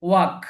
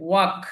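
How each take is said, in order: No difference in how they are said.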